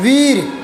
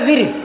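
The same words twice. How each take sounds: First: The vowel is long and stressed. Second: The vowel is short and quickly passed. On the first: The speaker calls it right. "वीर जो बड़ी मात्रा होती है उस पर time लगता है, उस पर जोर पड़ता है।" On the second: The speaker calls it wrong. "और छोटी कर दूंगा तो"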